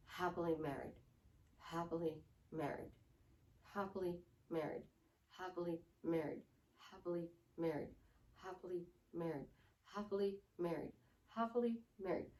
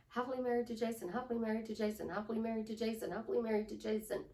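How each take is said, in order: First: Low, soft, evenly spaced robotic drone; monotone. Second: Quick, flowing repeated affirmation; feeling put in. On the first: Coach trying to affirm without emotion, monotone. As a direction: repeat it on one note with no feeling. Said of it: "Monotone voice". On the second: Coach showing it is no longer robotic, quick and felt. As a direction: run it together fast, with some feeling. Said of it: "you are putting a feeling into it". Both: Shown as a demonstration.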